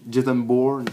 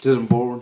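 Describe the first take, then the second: First: Jason Bourne said the American way, "Bourne" as an English "born"; "Jason Bourne" with an American accent, English vowels and r; American pronunciation. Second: Said in the usual way. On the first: Shown as a demonstration. Explaining his favourite trilogy, says the name in American. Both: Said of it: "moi je dis à l'américaine".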